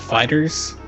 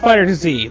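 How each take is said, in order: First: The name ends in a plain s sound. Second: The name ends with the letter zee. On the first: The speaker calls it right. "They said it's called Fighter" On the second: The speaker calls it wrong. "not Fighter Z"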